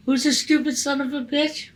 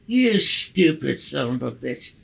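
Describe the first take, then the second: First: High, offended echo of the insult; indignant comeback. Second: Put-on slow, drawn-out drunken sneer; drunken insult. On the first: Retold or imitated. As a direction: throw the insult right back, affronted. Insulted driver throws it back. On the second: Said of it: "He goes like this".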